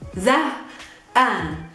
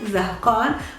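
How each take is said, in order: First: The qaf is pronounced as a glottal stop. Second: The qaf is pronounced as a q sound.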